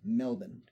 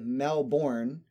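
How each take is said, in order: First: The ending is reduced with no R sound. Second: The ending is said fully, with a clear R. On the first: The speaker calls it right. "it is pronounced like it is spelled M-E-L-B-A-N" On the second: The speaker calls it wrong. "which would be completely inaccurate"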